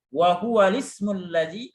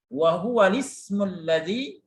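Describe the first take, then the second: First: The hamza is dropped and the vowel moves back. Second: The hamza is dropped and the vowel moves back.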